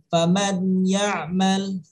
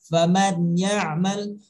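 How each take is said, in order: No difference in how they are said.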